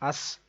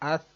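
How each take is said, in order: First: The consonant is a sharp, hissing s sound. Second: The consonant is a soft, lisped th-like sound. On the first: The speaker calls it wrong. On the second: The speaker calls it right.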